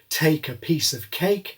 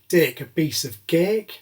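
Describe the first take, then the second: First: It is said with strong aspirated consonants. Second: It is said in a Northern English accent.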